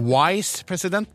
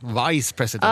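First: The first word begins with a w sound. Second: The first word begins with a v sound. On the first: The speaker calls it wrong. "man er ikke" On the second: The speaker calls it right. "man er"

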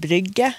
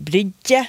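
First: No j-like sound follows the g. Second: A j-like sound follows the g. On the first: This is the standard form. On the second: This is a dialect form.

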